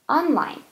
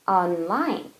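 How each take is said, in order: First: The stress is on the first syllable. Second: The stress is on the second syllable. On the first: It is used as an adjective. "형용사일 때는 앞에 강세" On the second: It is used as an adverb. "부사일 때는 뒤에 강세"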